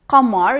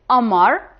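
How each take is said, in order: First: It starts with a hard q sound. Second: The q is dropped and replaced by a soft catch. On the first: This is the standard pronunciation. "you won't say qamar" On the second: This is how some Levantine regions say it. "you will say amar"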